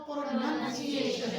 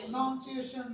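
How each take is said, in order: First: "प्रोनंसिएशन" slowly, with "nun" in the middle; corrected pronunciation. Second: "प्रोनाउंसिएशन" with "noun" in the middle; wrong pronunciation. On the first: Shown as a demonstration. Teacher modelling the answer for students, slow corrected pronunciation. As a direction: say "प्रोनंसिएशन" slow, as pro-nun-see-ay-shun. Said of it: "तो क्या word होगा?". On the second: Retold or imitated. Teacher echoing the students' mistake, mispronounced. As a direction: say "प्रोनाउंसिएशन" as pro-noun-see-ay-shun. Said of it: "नाउन भी नहीं है ये".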